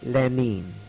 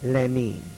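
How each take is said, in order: First: The name is said with a Russian pronunciation. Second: The name is said with a Russian pronunciation.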